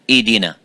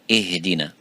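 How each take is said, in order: First: The h sound is left out entirely. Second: The h is soft, breathy and clearly heard. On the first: The speaker calls it wrong. "if it's weak and weaker and weaker, you make it weaker, it becomes" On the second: The speaker calls it right. "We give it time and we give it air"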